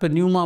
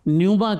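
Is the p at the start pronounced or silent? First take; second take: pronounced; silent. First: The word starts with an audible p sound. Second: The word starts with n; no p sound. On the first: The speaker calls it wrong. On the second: The speaker calls it right.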